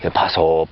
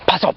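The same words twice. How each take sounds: First: It is said calmly, without urgency. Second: It is said with urgency.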